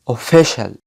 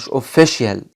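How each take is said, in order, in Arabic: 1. الحرف الأوسط صوت 'sh'. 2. الحرف الأوسط مش صوت 'sh'. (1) "دول بيعملوا صوت ش" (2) "مش official"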